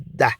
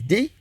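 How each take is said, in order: First: The letter is said as a short sound. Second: The letter is said as its full name. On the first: "Short D is da" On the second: "Long D is D"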